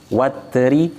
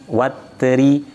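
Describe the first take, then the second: No difference in how they are said.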